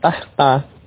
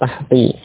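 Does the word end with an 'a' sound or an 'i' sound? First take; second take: a sound; i sound. First: The word ends with an 'a' vowel. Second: The word ends with an 'i' vowel. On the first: The word stands alone as an adverb of place. "kalau mansub tahta" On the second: The word follows a preposition. "menjadi majrur dengan kasrah"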